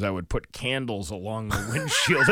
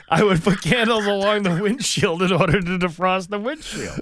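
First: Said in the usual way. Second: "candles" stressed, higher and louder; emphatic insistence. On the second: Real, not acted. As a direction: insist on "candles", each word weighted. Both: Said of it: "I'm not making this up".

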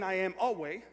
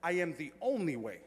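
First: "a" picked out as the wrong word in "I am a way"; stress on A. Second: "only" leaned on in "the only way"; emphatic stress on ONLY. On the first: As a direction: lean on A, the rejected version. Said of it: "he's not saying". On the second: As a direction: declare it firmly, punching ONLY. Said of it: "he's emphatically declaring that". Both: Shown as a demonstration.

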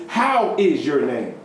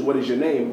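First: "How" slow and leaned on; stress on How. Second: Said in the usual way. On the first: Shown as a demonstration. Preacher giving the German sense, slow stress on "How". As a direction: lean on "How" in "How is your name". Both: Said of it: "it actually means".

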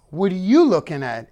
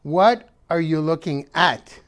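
First: Confrontational "What are you looking at?" with stress on you; wrong tonality. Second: Curious "What are you looking at?" with stress on What; right tonality. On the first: Demonstrating the wrong way to ask, confrontational. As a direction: snap it like picking a fight. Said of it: "Wrong tonality. ... Not". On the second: Showing the viewers the right way to ask, reflective. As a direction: ask it like a real question, leading with What. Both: Shown as a demonstration.

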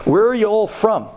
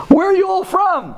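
First: Lightly voiced Brooklyn accent; hint of Brooklyn in a casual question. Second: Put-on high, emphatic Brooklyn accent; hammed-up Brooklyn imitation, pitched way up. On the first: Host greets visiting guys over dessert, light Brooklyn accent. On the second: Landlord surprises the visiting guys with his Brooklyn accent. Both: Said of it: "He was talking with a Brooklyn accent".

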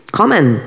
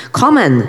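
First: A higher call of "Kommen", falling at the end. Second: Urgent shout. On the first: Bald man calling the German soldier over, raised voice. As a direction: call "Kommen" across the street. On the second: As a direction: yell "Kommen!" with full force. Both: A narrator's reading. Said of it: "zawołał do niego łysy".

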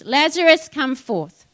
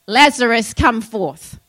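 First: Loud cry. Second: Louder proclamation of "Lazarus, come forth" as God's voice; commanding call. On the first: A narrator's reading. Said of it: "cried with a loud voice". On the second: Acted. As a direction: call him out of the tomb with authority. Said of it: "God is saying to us".

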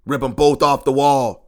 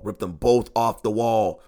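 First: Louder, real frustrated shout; angry outburst. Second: Said in the usual way. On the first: Real, not acted. A fan fed up with his team, angry outburst. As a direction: let the anger burst out on the wall.

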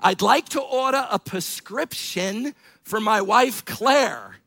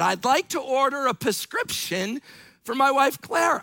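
First: Put-on grandfather's New York accent, measured and deliberate; lightly imitated New York grandfather; thick New York accent. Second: Mildly irritated repeat, pitched higher; raised voice with a touch of irritation; a little irritated. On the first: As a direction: order in an old New Yorker's accent. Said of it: "in his thick New York accent". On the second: Retold or imitated. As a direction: imitate an impatient grandfather placing an order. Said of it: "said it louder and a little bit irritated".

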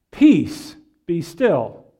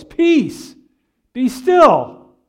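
First: Said in the usual way. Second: Loud, high command over a storm; loud cry. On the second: Acted. Preacher acting Jesus calming the storm, loud cry. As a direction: cry it out with force, a beat between commands. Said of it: "he cries out in a loud voice".

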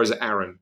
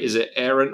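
First: "Aaron" said with a short a, like "Arran"; second pronunciation of Aaron. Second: "Aaron" said the first of two ways, like "Air-un"; first pronunciation of Aaron. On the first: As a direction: say "Aaron" opening as in "arrow". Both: Retold or imitated. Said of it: "I was like".

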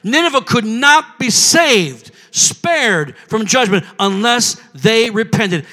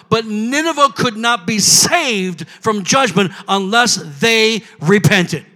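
First: Slow, weighty stress on "not" and "saved"; deliberate restatement, pausing after "saved"; emphatic repetition. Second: Said in the usual way. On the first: Real, not acted. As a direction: spell it out slowly with "not" lifted. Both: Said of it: "Did you hear what I said?".

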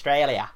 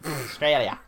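First: "Australia" with an Australian vowel, spoken fast; Australian-style "Australia"; Australian pronunciation. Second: "Australia" clipped to "Stralia"; Aussie "Australia"; Australian "Australia". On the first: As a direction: say "Australia" the way Aussies do. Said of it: "actually pronounced". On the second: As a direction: drop the first syllable of "Australia". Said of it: "actually pronounced Australia". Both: Shown as a demonstration.

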